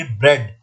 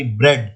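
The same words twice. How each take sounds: First: Said in the usual way. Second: ब्रेड said on its own, low and falling, with a short "eh"; ब्रेड as a one-word pronunciation example; short eh sound demo. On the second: Shown as a demonstration. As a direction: model ब्रेड for the class, "eh" vowel clear. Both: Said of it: "तो इसमें एह sound आई".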